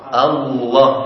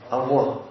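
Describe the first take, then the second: First: The L is a clear L, tongue on the gum. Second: The L sound is replaced by a W-like sound. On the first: The speaker calls it right. "Yang benar adalah tadi" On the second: The speaker calls it wrong. "Karena bukan lam itu wawu tapi Allah. Ya kan kayak anak-anak kita"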